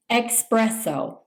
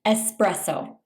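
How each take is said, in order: First: "espresso" with an added k, "ex-presso"; "espresso" wrongly as "ex-presso"; mispronounced espresso. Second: "espresso" with a plain s, "es-presso"; correct pronunciation. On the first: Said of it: "mispronounce this by saying". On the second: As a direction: say "espresso" with no k sound. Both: Shown as a demonstration.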